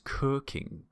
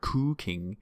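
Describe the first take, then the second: First: The first vowel is not an ooh sound. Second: The first vowel is a long ooh sound. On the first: The speaker calls it right. "it's cooking" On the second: The speaker calls it wrong. "not to let it be a ooh sound. It's not cooking"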